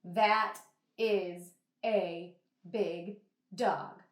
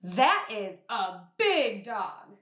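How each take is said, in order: First: Flat, unexcited reading; flat and bored. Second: Slow, excited, a little louder; excited exclamation. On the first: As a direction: say it like it's nothing special. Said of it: "I would not say it like that". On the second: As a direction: react like you really saw a big dog. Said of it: "get a little bit loud and a little bit excited". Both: Shown as a demonstration.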